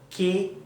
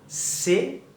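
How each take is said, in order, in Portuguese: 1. Começa com som de K forte. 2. Começa com som de S suave. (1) "Não é" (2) "vão ter um som de S"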